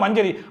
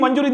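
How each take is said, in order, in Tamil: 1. நடுவில் உள்ள உயிர் ஒலி 'a' ஒலி. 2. நடுவில் உள்ள உயிர் ஒலி 'u' ஒலி. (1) "என் பேர் கூட மஞ்சரி" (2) "மஞ்சுரி தாங்க நிறைய பேர் சொல்றாங்க"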